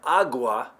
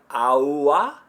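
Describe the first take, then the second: First: The g is a full, hard stop. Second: There is no g sound at all. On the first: "If you've been saying agua" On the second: "am I just saying A U A? ... That would be without the G at all"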